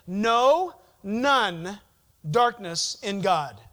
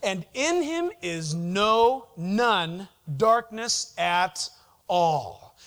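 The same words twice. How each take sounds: First: "no" punched loud, then "none" and "darkness" spelled out; emphatic double-negative demo; stress on none. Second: Lightly put-on Jewish New York accent, slowed; a hint of a New York Jewish lilt on "no, none darkness"; mild New York Jewish accent imitation. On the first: Shown as a demonstration. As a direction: hit "no" hard, pause, then "none darkness in God". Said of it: "It's hard for us in English to say". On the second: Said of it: "in his Jewish New York accent".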